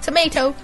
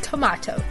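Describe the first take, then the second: First: Tomato is said with an American pronunciation. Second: Tomato is said with a British pronunciation. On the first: The speaker calls it wrong. "not tomato" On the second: The speaker calls it right. "I said tomato"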